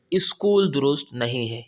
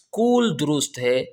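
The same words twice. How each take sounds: First: اسکول said iskool with a leading i; اسکول demonstrated as iskool; wrong iskool. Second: اسکول said skool, opening on the s; اسکول as skool, no vowel before it; اسکول demonstrated as skool; correct skool. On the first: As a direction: add an i sound before the s: iskool. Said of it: "الف کی آواز نہیں نکل رہی". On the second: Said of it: "سین کی آواز نکل رہی ہے". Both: Shown as a demonstration.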